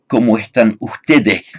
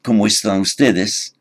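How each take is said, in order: First: The s sounds are softened to an h. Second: The s sounds are said fully.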